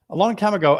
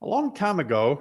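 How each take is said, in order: First: Said in the usual way. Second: Out of breath. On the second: Real, not acted. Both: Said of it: "whew, I'm out of breath".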